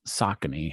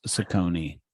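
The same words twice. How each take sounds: First: Saucony said SAH-kuh-nee; corrected pronunciation. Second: Saucony said suh-KOH-nee; own pronunciation. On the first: Host corrected by his co-host, Saucony as SAH-kuh-nee. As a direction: stress the first syllable of Saucony, short middle vowel. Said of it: "There you go". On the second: Podcast host saying a brand his own way, Saucony as suh-KOH-nee. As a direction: stress the middle of Saucony, with a long O. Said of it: "say it how I would say it". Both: Shown as a demonstration.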